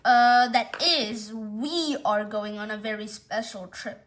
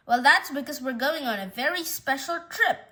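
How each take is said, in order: First: Slow hesitant lead-in, then a weighted WE; stress on WE. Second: Said in the usual way. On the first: Acted. Owner correcting who goes on the trip, WE stressed and held. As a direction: lean on "we" to correct yourself.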